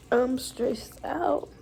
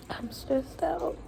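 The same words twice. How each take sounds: First: Said in the usual way. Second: Higher, softer and slow, worn out; weary sigh. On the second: Real, not acted. Repeating to viewers, softer and drained. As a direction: let it deflate as you repeat it.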